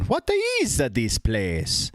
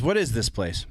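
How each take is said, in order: First: It imitates the in-game Mario voice actor's voice. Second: It sounds like a plain, regular talking voice.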